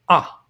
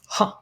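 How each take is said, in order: First: The vowel starts plainly with no h sound. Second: The vowel starts with a breathy h sound. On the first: "smooth breathing mark on the left indicates no aspiration" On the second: "Rough breathing mark on the right indicates an aspiration"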